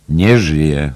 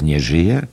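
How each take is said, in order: First: Loud exclamation, strong on NIE; exclaimed. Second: Anxious question, rising on ŻYJE; alarmed question. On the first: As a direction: throw „Nie żyje” back as a loud cry. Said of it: "zawołał Martin Cunningham". (głośny okrzyk „Nie żyje!”) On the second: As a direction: ask „Nie żyje?” in alarm, voice lifting at the end. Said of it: "wykrzyknął z lękiem". (pełne lęku pytanie „Nie żyje?”) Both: A narrator's reading.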